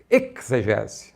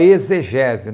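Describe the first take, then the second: First: The x is said like a ks sound. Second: The x is said like a z sound. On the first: This keeps the original Greek prefix ex. The speaker calls it right. "uma pronúncia mais correta seria exegese" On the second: This is the usual everyday Portuguese way. The speaker calls it wrong. "a gente fala exegese, Porque a língua portuguesa nos obriga a falar assim"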